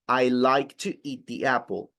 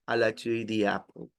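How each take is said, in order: First: The words are articulated clearly with energy. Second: The words are mumbled with little energy. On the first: The speaker calls it right. "So there is more intention" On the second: The speaker calls it wrong. "It's more or less like the attitude in which you said it"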